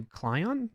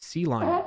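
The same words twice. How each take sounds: First: Clion said as one word, as a first guess; unsure pronunciation. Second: C Line split, the letter C and then line; corrected pronunciation. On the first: Developer reading comments aloud guesses at a tool's name, unsure pronunciation. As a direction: try out Clion as a single name. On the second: Developer retries a tool's name for viewers, corrected pronunciation. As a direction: say C Line as letter C plus line, higher. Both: Real, not acted. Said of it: "if I'm pronouncing that right".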